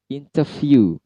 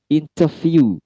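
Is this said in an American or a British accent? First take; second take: British; British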